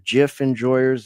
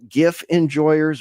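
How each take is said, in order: First: The word begins with a soft J sound. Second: The word begins with a hard G sound.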